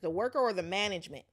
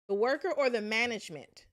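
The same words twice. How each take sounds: First: It is said with little pitch variation. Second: It is said with more pitch variation. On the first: The speaker calls it wrong. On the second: The speaker calls it right.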